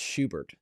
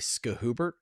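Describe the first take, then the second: First: The name starts with an sh sound. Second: The name starts with an sk sound. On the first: The speaker calls it right. "you'd be surprised how many people mispronounce Schubert" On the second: The speaker calls it wrong. "people actually say Skahubert"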